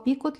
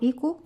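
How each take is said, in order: First: The word ends with a clear t sound. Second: The word ends on a vowel, no final t. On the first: "في ناس بينطقوها بيكوت" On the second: "في ناس بينطقوها بيكو"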